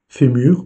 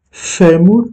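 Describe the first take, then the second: First: Said in the usual way. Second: Fémur said higher, the Portuguese way; Portuguese word. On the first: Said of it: "modelling word". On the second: Shown as a demonstration. Teacher models Portuguese fémur, Portuguese pronunciation. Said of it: "modelling Portuguese word".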